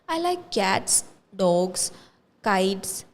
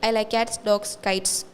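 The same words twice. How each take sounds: First: Short pauses separate each item in the list. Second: The items run together without any pauses. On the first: The listener can follow and understand each item. The speaker calls it right. "if I'm saying it like that, there is a pause" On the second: It is just a dump of information. The speaker calls it wrong. "There is no comma, there is no pause, so it is just a dumping of information"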